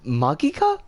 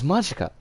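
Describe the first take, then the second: First: The g is hard, as in go. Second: The g is soft, as in magic. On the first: The speaker calls it right. "the the G and not the Z sound" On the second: The speaker calls it wrong. "like magic, you know? Like the the G would be the same as the G in magic"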